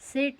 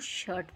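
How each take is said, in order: First: The vowel is a short front vowel. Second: The vowel is an 'er' sound. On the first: The speaker calls it wrong. "सेट नहीं पढ़ेंगे" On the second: The speaker calls it right. "इसको शर्ट पढ़ेंगे"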